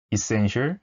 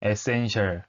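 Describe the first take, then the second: First: Essential as i-SEN-shal, second syllable stressed; 원어민 발음; native essential. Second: Essential as e-sen-shal with falling tune; 한국식 essential; Konglish essential. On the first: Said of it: "전혀 다릅니다". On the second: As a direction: say essential Korean-style, flat syllables. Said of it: "뭐 이런 식으로 읽으실". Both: Shown as a demonstration.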